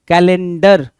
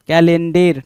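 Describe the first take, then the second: First: कैलेंडर ending in a short "dur"; correct pronunciation. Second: कैलेंडर ending in a long "dair"; wrong pronunciation. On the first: Teacher correcting the spelling, कैलेंडर said as "ka-len-dur". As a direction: punch out कैलेंडर with a schwa in the last syllable. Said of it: "डर, डर के लिए हमें ए". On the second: Teacher rejecting the misspelt word, कैलेंडर said as "ka-len-dair". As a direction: stretch the last vowel of कैलेंडर to "DEIR". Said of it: "कैलेंडर नहीं". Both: Shown as a demonstration.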